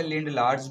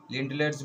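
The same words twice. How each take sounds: First: लिंडलार्स with a long open aa in the second syllable; alternative pronunciation. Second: लिंडलर्स with a short, light er in the second syllable; usual pronunciation. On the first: Teacher shows students another way people say it, lind-LAARS. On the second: Teacher gives students the common form, LIND-lers. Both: Shown as a demonstration. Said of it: "कुछ लोग इसे लिंडलार्स भी पढ़ते हैं".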